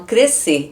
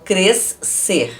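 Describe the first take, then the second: First: The S and C merge into one sound. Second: The S and C are sounded separately. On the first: The speaker calls it right. "eu falo crescer ... Eu junto o som do S e do C" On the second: The speaker calls it wrong. "eu não falo crescer"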